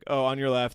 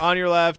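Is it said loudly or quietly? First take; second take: quietly; loudly. First: It is said quietly. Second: It is said loudly.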